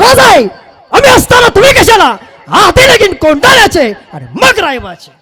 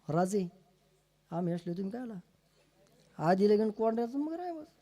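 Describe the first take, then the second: First: It is said in a booming, powerful voice. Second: It is said in a weak, thin voice.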